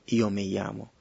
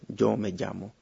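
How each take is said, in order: First: The first sound is a soft semivowel glide. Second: The first sound is a voiced affricate. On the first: "es como una especie de semivocal Y" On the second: "sería un sonido africado sonoro"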